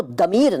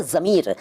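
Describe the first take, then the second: First: दमीर, d replacing the first z. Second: Said in the usual way. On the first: Shown as a demonstration. Teacher showing the rejected form, दमीर with d for z. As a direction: start दमीर on a d. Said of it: "नहीं कहते". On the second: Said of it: "इसको दमीर नहीं कहते".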